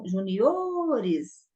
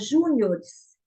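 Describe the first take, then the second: First: The stress falls on the penultimate syllable. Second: The stress falls early, before the penultimate syllable. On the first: The speaker calls it right. "juniores, aqui é uma paroxítona" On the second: The speaker calls it wrong. "geralmente se fala júniores"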